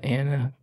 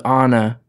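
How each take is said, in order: First: The name has an American pronunciation. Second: The name has a non-American pronunciation. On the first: This is how the singer says it as an American. "but I call it Anna because I don't say Anna. I'm American" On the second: This is the name as the character has it. "Her name's her name's Anna"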